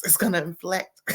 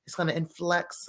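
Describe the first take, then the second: First: "inflect" said clearly, rising at the end; corrected word. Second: "influx" as a misremembered "inflect", said soft; wrong word. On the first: Vlogger corrects herself to the cast member's word inflect. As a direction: land the word "inflect" properly. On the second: Vlogger misquotes the cast member's word as influx. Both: Retold or imitated. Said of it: "what she say?".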